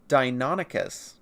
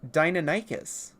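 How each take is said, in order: First: It is pronounced the way most people say it. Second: It is pronounced like Americanized dinosaur names. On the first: "the way most people do" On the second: "the way that you would normally in Americanized dinosaur names"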